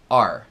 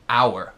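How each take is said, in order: First: The word is said with one syllable. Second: The word is said with two syllables. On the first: This is how it sounds inside a sentence. "a gente é preguiçoso, né? Então é are, normalmente" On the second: This is how it sounds said on its own. "Sozinho é muito comum pronunciá-la como se tivesse um, duas sílabas"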